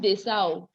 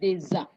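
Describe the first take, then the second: First: The linking consonant is a hissing S sound. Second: The linking consonant is a buzzing Z sound. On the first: The speaker calls it wrong. "It's not Desa" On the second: The speaker calls it right. "Z sound"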